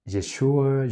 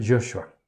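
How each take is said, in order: First: "Yeshua" the Hebrew way, YESH-wa; Hebrew pronunciation. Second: "Joshua" said YOSH-wa; Hebrew pronunciation variant. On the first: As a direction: say "Yeshua" with an e in the first syllable. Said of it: "los israelitas, ¿cómo dicen?". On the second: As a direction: say "Joshua" with a y sound and an o. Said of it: "Ellos dicen". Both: Shown as a demonstration.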